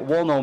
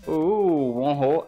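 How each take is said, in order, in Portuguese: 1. O nome é pronunciado como 'Wonho'. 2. O nome é pronunciado como 'honrou'. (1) "mas acho que o certo é Wonho mesmo" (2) "eu vou continuar pronunciando honrou"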